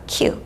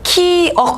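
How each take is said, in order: First: The second syllable has the vowel eu. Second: The second syllable has the vowel eo. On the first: The speaker calls it right. "키읔이라고 읽어요" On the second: The speaker calls it wrong. "키억 아니고요"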